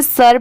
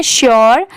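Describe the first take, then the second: First: "sure" said as सर, a short "sur" without the "sh" glide; सर, the common mistaken way of saying sure; wrong pronunciation. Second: श्योर with a clear "shyor" opening sound; correct pronunciation. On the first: Teacher showing students the wrong way, सर. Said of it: "but ये wrong होता है". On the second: Teacher giving students the right way, श्योर. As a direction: say श्योर as "shor", not "sur". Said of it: "इसकी correct pronunciation है". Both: Shown as a demonstration.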